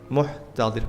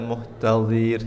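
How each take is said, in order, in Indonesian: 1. Vokal sebelum r pada kata muhtadhir pendek. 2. Vokal sebelum r pada kata muhtadhir panjang.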